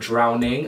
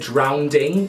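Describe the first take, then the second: First: No extra d sound comes before the ending. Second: An extra d sound comes before the ending. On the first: The speaker calls it right. "It's drowning" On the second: The speaker calls it wrong. "When people say drowning instead of"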